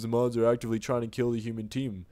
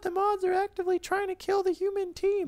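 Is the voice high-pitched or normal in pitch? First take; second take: normal; high-pitched. First: It is said in a normal-pitched everyday voice. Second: It is said in a high-pitched put-on voice. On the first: The speaker calls it right. "I probably should have gone with my my typical" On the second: The speaker calls it wrong. "I regret going with that high-pitched voice"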